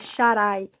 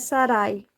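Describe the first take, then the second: First: The name begins with a sh sound. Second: The name begins with a plain s sound. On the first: The speaker calls it right. "a primeira letra do nome dela é um Shin. E o Shin tem som de S H" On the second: The speaker calls it wrong. "Mas não é Sarai"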